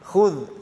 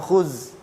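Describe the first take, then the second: First: The word ends with a soft 'th' sound. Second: The word ends with a buzzing 'z' sound. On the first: The speaker calls it right. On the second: The speaker calls it wrong.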